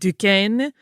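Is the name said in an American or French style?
French. French style, with a softer vowel sound. "a French speaker pronounce it ... where that A sound is a little softer"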